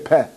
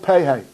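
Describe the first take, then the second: First: It ends with a short 'eh' vowel sound. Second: It ends with an 'ay' vowel sound.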